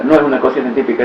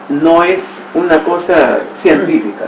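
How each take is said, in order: First: Fast throwaway repeat; fast echo of the denial; quick repeat. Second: Slow, weighty denial; slow careful denial; slow emphatic. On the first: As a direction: rattle it off quickly. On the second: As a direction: lean into it slowly. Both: Shown as a demonstration.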